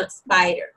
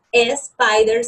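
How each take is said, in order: First: "spider" starting straight on a clean s, no vowel before it; correct spider. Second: "spider" with an extra e sound before the s, like espider; wrong spider. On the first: Teacher shows learners the correct spider, clean s. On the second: Teacher shows learners the wrong spider, espider. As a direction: say "spider" the Spanish-speaker way, espider. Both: Shown as a demonstration. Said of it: "Aprender a pronunciar la S al principio".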